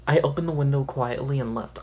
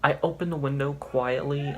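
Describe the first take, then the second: First: Whole line read out firmly and louder; reread with more force. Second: Said in the usual way. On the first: Shown as a demonstration. Rereading the story line to her viewers, louder. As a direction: give the re-read line a bolder push.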